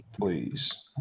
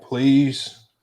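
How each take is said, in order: First: Breathy whispered please, voice dropped away. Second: Said in the usual way. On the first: Acted. Host whispering please to the chatbot, unvoiced whisper. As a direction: whisper please as a tiny begging aside. Pleading please after the prompt.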